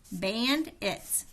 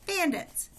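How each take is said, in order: First: Said in the usual way. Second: Bandits. said much higher, realising; light up as the clue clicks; eureka. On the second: Acted.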